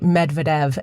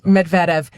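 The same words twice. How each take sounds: First: The stress is not on the second syllable. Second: The stress is on the second syllable. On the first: "Plenty of people say Medvedev, and that is also fine" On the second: "there's an emphasis on that second syllable"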